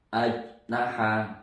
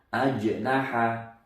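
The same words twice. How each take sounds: First: The middle consonant is held without a bounce. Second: The middle consonant is released with a small bounce. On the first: The speaker calls it wrong. "Tidak boleh membaca ajnaha" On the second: The speaker calls it right. "Harus ada pantulannya kecil"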